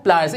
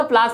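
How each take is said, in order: First: प्लास as "PLY-ers", lower; correct pronunciation. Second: प्लास as one syllable, "plaas"; plain long "aa" in प्लास; wrong pronunciation. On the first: Teacher repeats for learners, प्लास said "ply-ers". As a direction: glide from "ai" in प्लास. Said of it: "क्या होता है?". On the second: Teacher shows learners the mistake, प्लास said "plaas". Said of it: "प्लास नहीं होता". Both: Shown as a demonstration.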